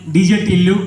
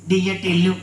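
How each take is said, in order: First: Said in the usual way. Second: Soft puppet introduction; puppet character. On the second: Acted. Puppet answering what its name is, soft puppet voice. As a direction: give the name quietly in a dummy's voice.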